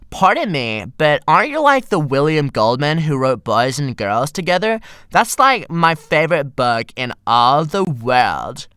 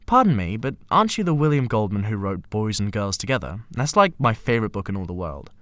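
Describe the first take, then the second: First: It is said in a Valley Girl voice. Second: It is said in a plain voice.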